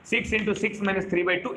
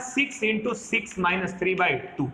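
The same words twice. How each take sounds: First: Six into six minus three by two, each word spelled out slowly; slow repeat. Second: Said in the usual way. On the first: Shown as a demonstration. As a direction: slowly dictate the formula for the class. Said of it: "ठीक है". (धीरे धीरे formula बोलना) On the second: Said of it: "ठीक है, six into six minus three by two".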